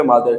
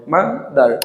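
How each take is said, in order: First: Said in the usual way. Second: "mother" in two beats, ma, dar; split into syllables. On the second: Shown as a demonstration. Teacher confirming the answer to learners, "mother" split ma, dar. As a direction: break "mother" after ma. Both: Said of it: "এখানে দুটি".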